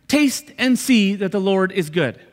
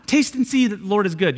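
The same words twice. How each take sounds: First: Slowed right down, landing each word from "Taste" to "good"; slow, deliberate emphasis. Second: Said in the usual way. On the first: Shown as a demonstration. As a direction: draw out "Taste and see" slowly. Slow emphatic repeat as the answer.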